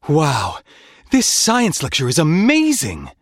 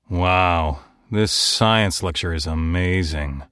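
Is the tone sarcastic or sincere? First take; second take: sincere; sarcastic. First: The line is said with sincere enthusiasm. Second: The line is whispered with sarcastic displeasure. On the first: The speaker truly admires the lecture. "Your performance might sound something like this" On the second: The speaker finds the lecture boring. "the same line could also be said dripping with sarcasm"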